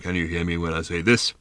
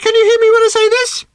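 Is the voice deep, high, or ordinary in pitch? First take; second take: deep; high. First: It is spoken in a very deep voice. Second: It is spoken at a much higher pitch. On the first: "this time in a sepulchrally deep voice" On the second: "It spoke this time at a much higher pitch"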